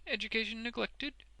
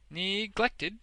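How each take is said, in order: First: High, smooth question; self-complacent. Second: "Neglected" high and loud; emphatic repeat. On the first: Wegg asks about Boffin's schooling, self-complacently. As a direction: ask it with smug politeness. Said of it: "with increasing self-complacency". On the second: Boffin echoes Wegg, "Neglected" said with emphasis. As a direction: hit "Neglected" with full force. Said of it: "repeated Boffin with emphasis". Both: A narrator's reading.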